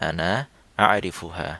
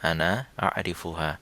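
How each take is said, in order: Both takes have the same delivery.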